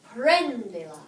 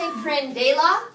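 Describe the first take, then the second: First: The stress is on the first syllable. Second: The stress is on the second syllable. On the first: The speaker calls it right. "we have to add a written accent over the first E" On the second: The speaker calls it wrong. "do you want to say prendela?"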